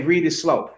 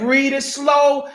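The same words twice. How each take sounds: First: Slow instruction. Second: Slow, each word spaced out; "Read it slow" drawn out and patient; slow, deliberate. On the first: Retold or imitated. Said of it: "Sometimes I say". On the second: Shown as a demonstration. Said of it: "I just said".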